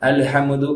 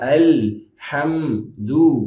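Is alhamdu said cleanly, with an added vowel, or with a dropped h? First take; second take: added vowel; cleanly. First: An extra vowel is inserted between m and d. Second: The h is kept with no extra vowel. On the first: The speaker calls it wrong. "அப்படி சொன்ன தப்புல" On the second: The speaker calls it right. "அதனால அல் ஹம் து"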